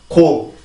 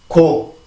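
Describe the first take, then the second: The two takes are said the same way.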